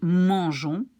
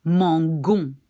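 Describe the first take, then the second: First: "mangeons" with zh as in measure; soft G. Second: "mangon" with guh-sound, said firmly and louder; hard G. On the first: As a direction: use a soft French g in "mangeons". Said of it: "then we can pronounce it like". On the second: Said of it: "then I should pronounce". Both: Shown as a demonstration.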